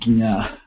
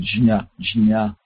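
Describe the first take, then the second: First: The word starts with a 'gy' sound. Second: The word starts with a 'j' sound. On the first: The speaker calls it wrong. "rather than" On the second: The speaker calls it right. "So it should be jnya"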